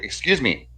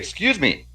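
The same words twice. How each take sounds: First: It is said calmly, without intensity. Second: It is said with more intensity.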